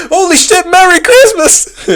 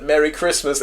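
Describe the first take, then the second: First: Much higher, louder, slow delighted yell; excited shout. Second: Said in the usual way. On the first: Retold or imitated. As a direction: shout it like a thrilling surprise. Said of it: "and then Axel was like". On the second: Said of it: "when someone said".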